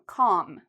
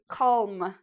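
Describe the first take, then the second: First: The L sound is silent in the word. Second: The L sound is pronounced in the word. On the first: The speaker calls it right. "No, calm" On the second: The speaker calls it wrong. "We don't say calm"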